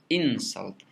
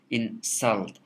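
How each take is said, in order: First: The stress is on the first syllable. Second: The stress is on the second syllable. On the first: The word is a noun. "When I pronounce the first syllable as a stress syllable" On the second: The word is a verb. "the second syllable of insult is stressed"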